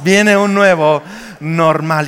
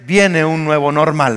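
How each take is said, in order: First: Slow, drawn-out "viene un nuevo normal"; emphatic repeat. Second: Said in the usual way. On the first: Shown as a demonstration. Preacher urging congregation to tell a neighbor, slow emphatic repeat. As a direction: stretch out "nuevo normal" to make it land. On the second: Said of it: "por favor, dígale".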